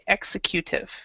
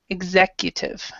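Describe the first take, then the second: First: The stress falls away from the 'ec' syllable. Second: The stress falls on the 'ec' syllable. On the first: The speaker calls it wrong. "they like to say executive like execute" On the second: The speaker calls it right. "the correct pronunciation is executive"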